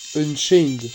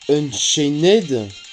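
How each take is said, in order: First: The ending is said as a bare d. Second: The ending is said as an extra syllable. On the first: The speaker calls it right. "tu ne fais pas le et, tu fais juste le de" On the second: The speaker calls it wrong. "Ou comme dirait certains"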